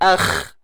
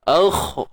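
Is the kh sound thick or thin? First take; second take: thin; thick. First: The kh sound is thin and light. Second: The kh sound is thick and heavy. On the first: The speaker calls it wrong. "Jangan akh" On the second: The speaker calls it right. "Isti'la. Tebal eh"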